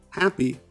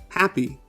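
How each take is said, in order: No difference in how they are said.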